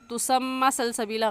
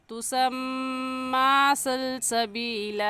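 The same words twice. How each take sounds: First: The m and its vowel are cut short. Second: The m is nasalized and the vowel drawn out. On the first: The speaker calls it wrong. "गलत है" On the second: The speaker calls it right. "सही है"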